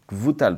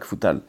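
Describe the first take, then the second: First: The consonant after the K is a v sound. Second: The consonant after the K is not v. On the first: The speaker calls it right. "il faut faire un vet" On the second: The speaker calls it wrong. "pas Kfutal"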